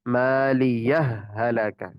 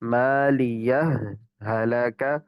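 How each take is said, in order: First: One doubled h joins the words without pause. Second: Both h sounds are heard, with a short pause. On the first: "इदगाम एक हा के साथ पढ़ेंगे मुशद्दद से" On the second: "दोनों हाओं के साथ पढ़ेंगे और थोड़ा रुक कर"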